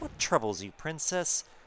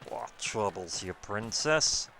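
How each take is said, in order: First: It is said in a plain voice. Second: It is said in a croakier, frog-like voice.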